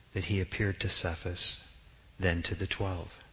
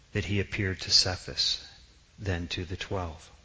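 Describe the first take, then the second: No difference in how they are said.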